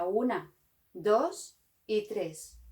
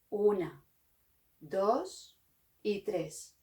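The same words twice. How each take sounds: First: The counting is said at normal speed. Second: The counting is said slowly.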